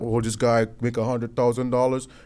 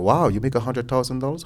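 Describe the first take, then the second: First: It sounds jealous and resentful. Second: It sounds admiring and impressed.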